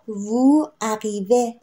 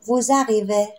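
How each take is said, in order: First: The words are said separately without a z sound. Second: The words are linked with a z sound. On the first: "ما اینجا وو عقیوه داشتیم" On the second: "میایم اینجا لیزون میکنیم، میگیم ووزقیوه"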